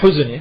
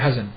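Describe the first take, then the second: First: The word starts with a 'u' vowel. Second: The word starts with an 'a' vowel. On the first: The speaker calls it right. "Wal huzn, ya" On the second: The speaker calls it wrong. "bukan hazan"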